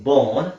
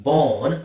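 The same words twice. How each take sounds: The two takes are said the same way.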